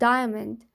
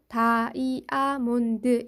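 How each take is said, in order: First: The word is said in two syllables. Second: The word is said in five syllables. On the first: "이음절의 단어" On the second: "한국어처럼 영어를 발음하면 ... 무려 다섯 글자로"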